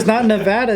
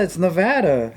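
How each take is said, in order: First: "Nevada" raised with a rising end; Nevada contrast demo. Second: "Nevada" dropping to a falling end; Nevada contrast demo. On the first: Repeating the difference for a friend, rising "Nevada". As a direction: lift "Nevada" as the rejected version. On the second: Repeating the difference for a friend, falling "Nevada". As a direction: land "Nevada" as the correct version. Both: Shown as a demonstration. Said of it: "Say that again? The difference?".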